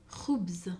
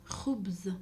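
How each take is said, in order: The two takes are said the same way.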